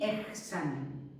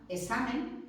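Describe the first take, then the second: First: "examen" slowly, with a throaty J before the S; "examen" drawn out, K turned into a rasped J sound; softened K before S. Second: "examen" as e-SA-men, no K; "examen" with a simple S for X; X as S only. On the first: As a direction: say "examen" as ej-SA-men. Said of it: "a mí me suena fatal". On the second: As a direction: say "examen" dropping the K. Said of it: "también admite como pronunciación correcta". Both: Shown as a demonstration.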